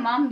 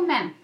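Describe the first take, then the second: First: The vowel is open and back, like mom. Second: The vowel is front, like mem. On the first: "İngiliz aksanıyla mom diyorlar" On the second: "Ama Amerikan aksanında o mem"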